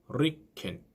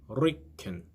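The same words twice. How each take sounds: No difference in how they are said.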